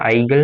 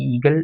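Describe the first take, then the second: First: The word begins with an 'ai' vowel. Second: The word begins with an 'ee' vowel. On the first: This is how an English reader would read it. "English വായിക്കുന്നത്" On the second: This is the German pronunciation. "ജർമ്മനിലോട്ട് വരുമ്പോൾ"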